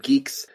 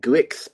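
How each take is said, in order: First: The name is said like the word 'geeks'. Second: The name is said as spelled, like 'guix'. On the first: The speaker calls it right. "it's French, ... so hence the name Geeks" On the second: The speaker calls it wrong. "initially think that they should pronounce it GUIX"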